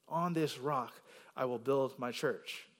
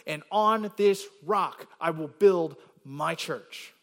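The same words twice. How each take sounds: First: Said in the usual way. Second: Slow, louder, weight on each key word of "on this rock"; deliberate, punched-out reading of "on this rock"; emphatic stress. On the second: Shown as a demonstration. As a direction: land hard on "rock" and "my church", spaced out. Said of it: "Notice the emphasis on these next words".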